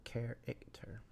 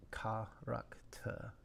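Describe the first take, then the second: First: English 'character' as care-ik-ter; soft English 'character', first syllable stressed; English pronunciation. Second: 'character' in even French steps, ka-rak-ta; soft, evenly spaced French 'character'; evenly stepped French. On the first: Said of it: "Three syllable". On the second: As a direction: step evenly through each syllable of French 'character'. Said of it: "the rhythm feels evenly stepped". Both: Shown as a demonstration.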